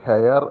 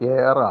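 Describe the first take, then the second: First: The word starts with an h sound. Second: The word starts with a vowel sound. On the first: The speaker calls it wrong. "ഹെയർ അല്ല" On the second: The speaker calls it right. "എയർ ആണ്"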